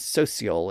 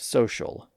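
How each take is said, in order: First: The middle consonant is a plain s sound. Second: The middle consonant is a sh sound. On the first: This is the older pronunciation from the fifteen hundreds. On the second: This is the modern pronunciation.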